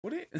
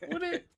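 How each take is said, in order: First: Said in the usual way. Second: Squeaky incredulous repeat; high mock disbelief.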